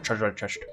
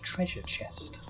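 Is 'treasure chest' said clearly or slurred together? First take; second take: slurred; clear. First: The two words are slurred and run together. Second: Each word is clearly and separately enunciated. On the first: The speaker calls it wrong. "I always say treasure chest" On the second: The speaker calls it right. "it's very much treasure chest"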